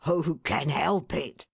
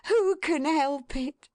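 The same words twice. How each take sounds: First: Lightly voiced fond husband; a plain man's hearty question; a hint of a cheerful father; Mister Tetterby. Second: High, slow, fond wife's cry; glad, affectionate woman; Missus Tetterby. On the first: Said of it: "cried Mister Tetterby". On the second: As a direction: sing it out with motherly delight. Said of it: "cried Missus Tetterby". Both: A narrator's reading.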